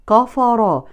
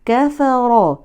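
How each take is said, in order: First: The k is heavy and thick. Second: The k is light and thin. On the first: The speaker calls it wrong. "وليست كفر" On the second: The speaker calls it right. "لا نفخم الكاف"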